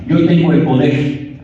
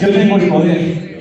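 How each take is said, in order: First: It is said aloud, less loudly. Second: It is said louder and stronger.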